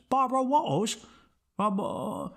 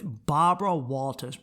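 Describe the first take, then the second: First: "Barbara Walters" higher, with mushy, dropped consonants; mock her by swallowing the middle of "Walters"; slurred imitation of "Barbara Walters"; mocking speech impediment. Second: Said in the usual way. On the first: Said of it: "it's not even a lisp. It's just like". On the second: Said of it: "it's not even a lisp".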